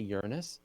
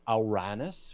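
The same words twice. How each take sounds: First: The name is said in a plain, everyday way. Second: The name is said in a pompous, Greek-like way. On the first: It avoids the rude-sounding joke. "if you're trying to like try to minimize the giggles" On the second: It is closer to the original Greek. "if you want to sound really pompous"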